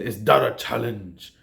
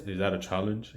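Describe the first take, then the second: First: Forceful, weighty Mufasa line, pressing hard on "that"; imitating old Mufasa's emphasis. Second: Flat, softer, lifeless read with a small rise on "that"; imitating dry delivery. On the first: Mufasa answering Scar's threat, forceful and commanding. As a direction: lean on the challenge like a king confronting his rival. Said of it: "he says it with this emphasis on it". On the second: Remake Mufasa answering Scar, dry and unnatural. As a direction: throw the challenge away with no feeling. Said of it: "just so dry and unnatural".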